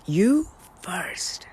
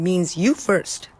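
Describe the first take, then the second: First: Hushed whispered echo. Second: Said in the usual way. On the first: Shown as a demonstration. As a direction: breathe it as a secret. Whispered repeat of key phrase.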